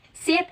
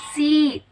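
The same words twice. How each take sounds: First: Said in the usual way. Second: "seat" with the vowel held long. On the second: Shown as a demonstration. Stretch out the middle of "seat". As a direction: lecturer contrasting sound length for students, drawn-out vowel in "seat". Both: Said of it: "Length is time duration of sounds".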